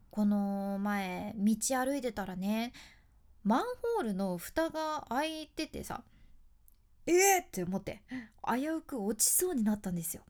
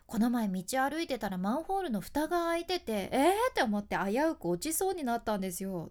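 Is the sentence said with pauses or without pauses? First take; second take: with pauses; without pauses. First: The sentence has short pauses between phrases. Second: The sentence runs on without any pauses.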